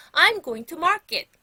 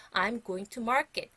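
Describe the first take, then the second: First: Loud, high, slow model sentence; slow, raised, projected teacher's voice; loud model phrase. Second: Said in the usual way. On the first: Shown as a demonstration. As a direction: call it out for pupils to echo. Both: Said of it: "큰 소리로 얘기할 테니까".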